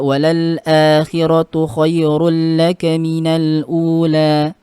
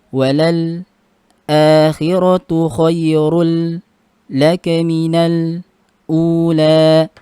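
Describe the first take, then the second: First: The article runs straight into akhiratu without stopping. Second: A brief stop comes after the article before akhiratu. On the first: This is the common reading. "Misalnya kita membaca" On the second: This is Hamzah's reading. "Bacanya seperti itu dengan sakda"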